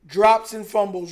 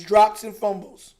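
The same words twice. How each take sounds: First: Drawn-out sigh, dragging out drops with a rise; exasperated sigh that lets the word hang; weary, disgusted lament. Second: Slow, spelled-out repeat, every word weighed; slow, pointed restatement of the complaint; slow and deliberate. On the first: Sighing at the team's mistakes. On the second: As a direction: lay it out slowly like a verdict. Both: Real, not acted.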